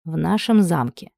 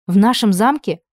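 First: Simple, natural. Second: «нашем» stressed in an alarmed, louder question; shocked question. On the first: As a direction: say «В нашем замке» simply, like a long-married husband. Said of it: "сказано так просто и естественно". (просто и спокойно, медленно: «В нашем замке») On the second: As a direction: gasp «В нашем замке?» in disbelief. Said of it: "ахнула Анна". (ахнув, возмущённо выделить «нашем» вопросом) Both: A narrator's reading.

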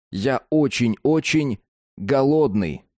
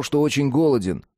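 First: «Я очень-очень голодный» slower, with pauses between words; quieter with pauses. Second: Said in the usual way. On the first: Shown as a demonstration. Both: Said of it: "тише и с несколькими паузами".

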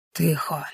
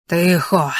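First: Hushed, much softer command; whispered hush. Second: Spoken at full voice, a stern order; firm hush. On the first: Masked kidnapper silences his captive in a tense whisper. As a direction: hiss it quietly into her ear. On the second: Kidnapper repeats his order to the captive, firmly aloud. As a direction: make her shut up, no whisper now. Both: A narrator's reading. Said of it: "шепоче".

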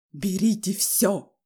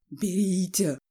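First: Loud, slow, drawn-out yell; frantic shout. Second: Muttered order, trembling with rage; agitated muttering. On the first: Enraged father flinging his wallet on the table, frantic shout. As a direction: shout as if out of your mind. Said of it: "крикнул он не своим голосом". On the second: Father shaking money out of his wallet, angry muttering. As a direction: mutter it while shaking all over. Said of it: "бормотал он, дрожа всем телом". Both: A narrator's reading.

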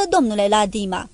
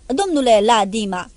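First: Ladima with the second syllable, "di", hit heavily; heavy stress on Ladima. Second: Repeated "Domnule Ladima" louder, with biting hissed sarcasm; mocking, hissed repetition; hissing irony. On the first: Acted. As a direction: lean hard on the "di" of "Ladima". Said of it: "pune pe silaba a doua un accent greu". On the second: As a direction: sneer the name back at him. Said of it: "repetarea numelui o face cu o ironie șuierătoare".

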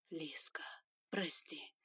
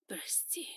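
First: Soft whisper close to the ear. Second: Soft breathless whisper; whispered sorry. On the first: Son whispering into the girl's ear, whispering. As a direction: breathe it to her. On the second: Son whispering an apology to the girl, whispering. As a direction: whisper it close. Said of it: "шепнул". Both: Acted.

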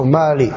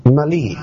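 First: "mali" with a long first vowel; alternative reading. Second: "mali" with a short first vowel; first reading variant. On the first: Teacher offers the other reading of the Arabic word, long vowel. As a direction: stretch the first syllable of "mali". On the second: Teacher offers one reading of the Arabic word, short vowel. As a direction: say "mali" with a quick first syllable. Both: Shown as a demonstration. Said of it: "mali atau mali".

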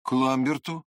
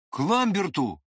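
First: Resolute question. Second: Sharp question. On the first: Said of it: "ответил я с не меньшей решимостью". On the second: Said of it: "резко спросил меня вдруг Длинный". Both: A narrator's reading.

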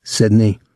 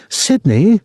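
First: Lightly mocking girl imitation, barely raised; imitating the girl. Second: Put-on high-pitched girl's cry; shrill call. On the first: Tom chuckling to Claude afterwards, mild girl imitation. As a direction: mimic the girl in a restrained voice. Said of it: "trying to imitate the girl's voice". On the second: Girl to her soldier boyfriend mid-fight, shrill call. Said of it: "the girl called shrilly". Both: A narrator's reading.

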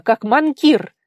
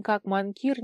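First: «манкир» hit high and loud, falling; stressed name. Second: Said in the usual way. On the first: Acted. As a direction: shout «манкир» hard with a falling tune. Tigir scolding her. («манкир» громко, с ударением и падением)

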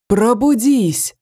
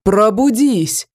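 First: Slow, drawn-out cry to wake the tree; yell. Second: Slow cry pushed louder; louder yell. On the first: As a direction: stretch it out like a summons. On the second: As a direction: call it out harder the second time. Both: A narrator's reading. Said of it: "заорал Дивный".

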